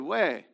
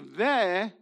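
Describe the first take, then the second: First: The syllable begins with a W sound. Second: The syllable begins with a V sound. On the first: "but you'd say we" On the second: "So then you would not say ve"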